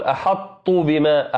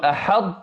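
First: "أحط بما" with a light, thin ط; wrong pronunciation. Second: "أحط" with the mouth full, heavy emphatic ط; correct emphatic ط. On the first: Teacher showing students the wrong way, light ط. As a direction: mispronounce "أحط" without emphasis. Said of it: "هذا خطأ". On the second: Teacher showing students the right way, heavy ط. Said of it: "تقول". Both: Shown as a demonstration.

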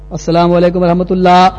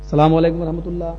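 First: Firmer, level chant; sung, intone it on one steady note; sung, imitated second salam. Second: Sung, softer, level intoning; sung, say it evenly like a prayer ending; sung, imitated closing salam. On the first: Sung, imam closing prayer, firmer second salam. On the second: Sung, imam closing prayer, softer first salam. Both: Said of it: "ایسی بات".

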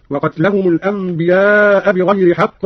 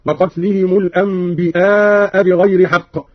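First: Said in the usual way. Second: الأنبياء said "al-anbi'aa", glottal stop replacing the y; slow reading, الأنبياء with hamza instead of ya. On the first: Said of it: "قرأ قالون بهمز الياء". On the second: Shown as a demonstration. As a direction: catch a hamza after "anbi" in الأنبياء. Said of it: "بهمز الياء".

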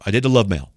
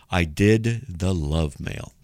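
First: Said in the usual way. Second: Slow, measured, weight on DID; slow, deliberate repeat. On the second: Real, not acted. Host confirms to listeners he did the love mail, slow and deliberate. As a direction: stretch out DID and LOVE, slowly.

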